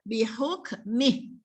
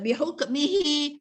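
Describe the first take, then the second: First: The word ends on a consonant, vowel dropped. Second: The word ends with a final vowel sound. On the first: The speaker calls it right. "Kita kena baca bihukmih ketika waqaf" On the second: The speaker calls it wrong. "bukan ya"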